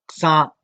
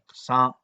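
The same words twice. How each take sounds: First: The word is said with a high tone. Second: The word is said with a low tone. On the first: It means sand. "La palabra arena tiene tono alto" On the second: It means soursop. "va con tono bajo"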